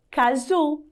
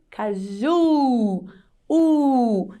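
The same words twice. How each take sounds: First: Said in the usual way. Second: "caju" with JU held long, then a long "U"; stressed last syllable. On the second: Shown as a demonstration. Teacher showing pupils the strong last syllable, "caju" with JUUU drawn out. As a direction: stretch the end of "caju" into "juuu", then sustain the U alone. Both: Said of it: "a última sílaba é mais forte".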